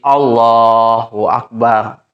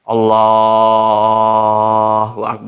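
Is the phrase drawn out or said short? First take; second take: short; drawn out. First: The phrase is said short and quick. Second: The phrase is drawn out with lengthened vowels. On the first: The speaker calls it right. "Jangan sampai pan panjang" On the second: The speaker calls it wrong. "itu nanti akan menyulitkan"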